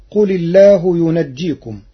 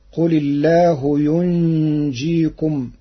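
First: "ينجيكم" with open nun and a doubled jim, yunajjikum. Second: "ينجيكم" as yunjikum, slow, with a long hummed nun; silent nun, light jim. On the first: Teacher citing the verse before showing Warsh's reading, jim doubled. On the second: Teacher showing Warsh's reading to listeners, silent nun and single jim. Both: Shown as a demonstration. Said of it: "بسكون النون وتخفيف الجيم".

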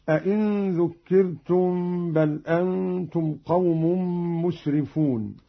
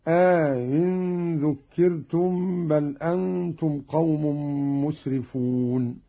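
First: Said in the usual way. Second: أئن said "aa-in", long aa, second hamza eased; softened hamza, inserted alif. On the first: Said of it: "بتسهيل الهمزة الثانية". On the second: Shown as a demonstration. Teacher demonstrating Qalun's reading, long alif inside أئن. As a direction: lengthen the start of أئن and glide into "in". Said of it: "مع إدخال ألف بينها وبين الأولى".

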